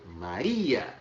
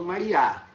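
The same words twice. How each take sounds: First: Maria said as ma-RI-a; stress on I. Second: Maria said as mari-A, last syllable stressed; stress on final A. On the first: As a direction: lean on the RI in Maria, final A light. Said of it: "Eu falo Maria". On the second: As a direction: land hard on the last A of Maria. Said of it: "e não falo Maria". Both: Shown as a demonstration.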